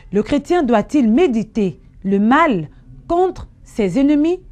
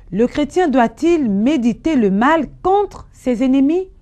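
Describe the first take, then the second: Both takes have the same delivery.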